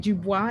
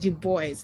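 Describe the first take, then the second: First: The name is pronounced the French way. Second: The name is pronounced the English way. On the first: The speaker calls it wrong. "because I'm French was my first language... so I always say Dubois" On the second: The speaker calls it right. "it's not Dubois, it's Du Bois"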